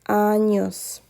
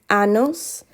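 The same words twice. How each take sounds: First: The middle consonant is an ny sound. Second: The middle consonant is a plain n sound. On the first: The speaker calls it right. "It is pronounced like a ñ" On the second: The speaker calls it wrong. "many of you are still saying años and you're not pronouncing the tilde above the N"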